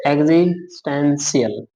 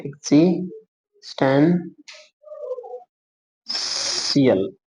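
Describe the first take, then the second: First: Said in the usual way. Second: existential stretched very slowly, every syllable drawn out. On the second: Shown as a demonstration. Teacher drawing the outline for students, very slow drawn-out word. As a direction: let existential hang slowly while your pen traces it.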